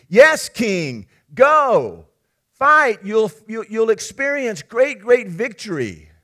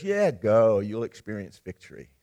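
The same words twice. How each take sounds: First: Loud, high, rousing cheer of yes-men; enthusiastic cheering. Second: Sarcastic. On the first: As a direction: whip up the king like cheering flatterers. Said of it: "And they're enthusiastic". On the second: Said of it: "Micaiah actually is sarcastic". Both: Acted.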